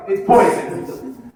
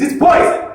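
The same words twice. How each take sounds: First: "It's poison." stretched slow and hushed; slow deadpan. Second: First "It's poison." pitched high and breathy; dramatic declaration. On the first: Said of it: "repeated slow take". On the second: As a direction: announce "It's poison." like a horror reveal. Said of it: "repeated as deadpan take". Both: Shown as a demonstration.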